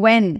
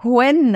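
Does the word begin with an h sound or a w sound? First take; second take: w sound; h sound. First: It begins with a plain w sound. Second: It begins with a breathy h sound. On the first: The speaker calls it right. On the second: The speaker calls it wrong.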